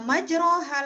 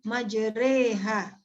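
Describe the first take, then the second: First: The vowel after the r is a clear a. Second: The vowel after the r sounds like e. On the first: The speaker calls it wrong. "tidak dibaca majroha lagi" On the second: The speaker calls it right. "tetapi dibaca majreha. Antara bunyi fathah dengan kasroh. Seperti bunyi e pada kata sate"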